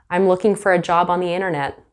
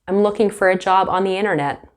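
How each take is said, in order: Both takes have the same delivery.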